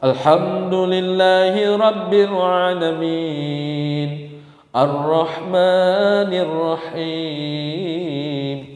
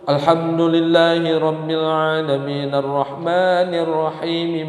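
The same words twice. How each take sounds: First: It is recited slowly and deliberately. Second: It is recited somewhat faster, words joined. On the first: "bacaan Quran tuh tartil" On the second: "Boleh sedikit cepat diwasal"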